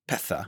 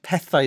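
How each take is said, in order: First: The word ends in an 'ah' sound. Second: The word ends in an 'eye' sound. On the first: This is the North Wales pronunciation. "North Walians would say petha" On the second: This is the pronunciation used by young Cardiff speakers. "But pethai is how you actually say it"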